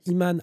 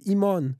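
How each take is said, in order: First: The second vowel is a clear open 'a'. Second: The second vowel sounds closer to 'o'. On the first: This is how the name is naturally pronounced. The speaker calls it right. "les gens disaient naturellement comment mon prénom se prononce" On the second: This is how English speakers say the name. The speaker calls it wrong. "en anglais ils disent Imon"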